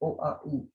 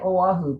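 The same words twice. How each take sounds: First: The vowels oh, ah, ooh are sounded separately. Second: The vowels are run together. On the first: The speaker calls it right. "It's Oahu" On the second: The speaker calls it wrong. "We say Oahu, but that's wrong"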